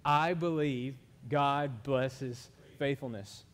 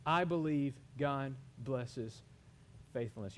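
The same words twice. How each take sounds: First: Very slow, measured declaration of faith; leading group recitation. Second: Slow declaration. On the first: Preacher has congregation say it with him, slow recitation. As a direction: lead the room word by word, drawn out and firm. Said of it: "Y'all wanna say it with me?". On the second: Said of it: "wanna say it with me". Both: Shown as a demonstration.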